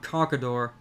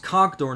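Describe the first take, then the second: First: The name is said with three syllables. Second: The name is said with two syllables. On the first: The speaker calls it wrong. "not Conkador" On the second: The speaker calls it right. "it's Conkdor"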